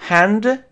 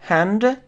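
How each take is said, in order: No difference in how they are said.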